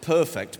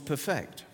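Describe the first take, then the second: First: The stress falls on its usual syllable. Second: The stress is moved to the other syllable. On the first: Something is flawless. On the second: To make something flawless.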